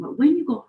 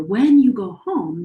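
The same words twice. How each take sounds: First: "when" lifted higher; stress on WHEN. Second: "When" pushed up and louder; stress on WHEN. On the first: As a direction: hit "when" to contrast with "if". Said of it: "not if you go home". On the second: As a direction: lean on "When", not "if". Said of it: "not if you go home, but when you go home". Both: Shown as a demonstration.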